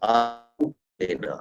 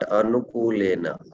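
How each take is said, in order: First: The first vowel is long. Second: The first vowel is short. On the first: The speaker calls it right. "A is there here again" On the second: The speaker calls it wrong. "not Anukulena"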